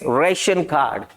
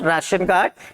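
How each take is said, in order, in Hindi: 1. पहला स्वर 'ay' जैसा बोला जाता है। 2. पहला स्वर 'ah' जैसा बोला जाता है। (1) "it's रेशन card" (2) "it's not राशन card"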